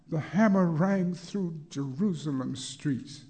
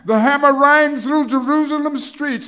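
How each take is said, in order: First: Said in the usual way. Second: High, very loud shout on rang; ringing shout. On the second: Acted. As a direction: ring it out across the city. First take, at the peak.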